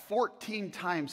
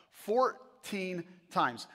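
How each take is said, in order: First: Said in the usual way. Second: "Fourteen times" drawn out very slowly, word by word; emphatic repeat. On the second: Real, not acted.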